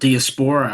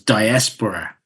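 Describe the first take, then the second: First: The second syllable is not stressed. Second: The stress is on the second syllable. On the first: The speaker calls it wrong. "I would always call it diaspora" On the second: The speaker calls it right. "the emphasis is on the S. It's on the second syllable"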